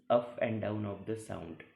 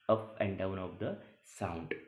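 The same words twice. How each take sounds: The two takes are said the same way.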